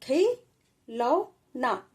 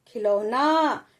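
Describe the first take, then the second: First: खिलौना drawn out very slowly, syllable by syllable; slow teacher demo; slow sounding-out. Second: खिलौना said briskly with a quick short खि; blended reading. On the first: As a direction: stretch खिलौना for a child. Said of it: "कैसे बोला है?". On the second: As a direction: say खिलौना at normal speed. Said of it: "छोटी ई की मात्रा है तो थोड़ा जल्दी बोल देंगे". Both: Shown as a demonstration.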